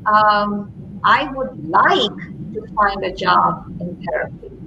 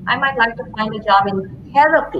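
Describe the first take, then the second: First: The word 'like' is stressed. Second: The word 'therapy' is stressed. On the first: It points to the reason behind the wish. "So then you take it to what's behind the like?" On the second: It points to what kind of work is wanted. "put the emphasis on therapy"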